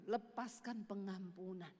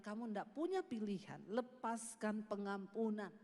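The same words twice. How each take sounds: First: Slow, low, lightly voiced divine command; voice of God. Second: Voice of God. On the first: God commanding forgiveness, slow and lower. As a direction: let each word fall slowly. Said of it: "dengar suara Tuhan tuh ngomong gini". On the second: Retold or imitated. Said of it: "Tuhan bilang".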